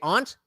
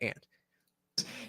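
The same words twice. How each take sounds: First: The word does not sound like 'ant'. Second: The word sounds just like 'ant'. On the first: "spell it normally if you say aunt" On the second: "the insect if you say aunt"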